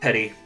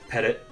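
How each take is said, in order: First: The word ends without a final t sound. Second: The word ends with a final t sound. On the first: "however you pronounce it" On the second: "I've heard it pronounced both ways"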